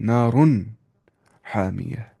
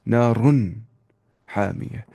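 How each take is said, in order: No difference in how they are said.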